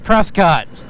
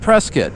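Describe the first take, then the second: First: The name is said the outsider way. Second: The name is said the local way. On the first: This is how an outsider assumes it is said. The speaker calls it wrong. "I used to think Prescott was pronounced, well, Prescott" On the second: This is how people there say it. The speaker calls it right. "no, it's Prescott. Hence, I call it Prescott"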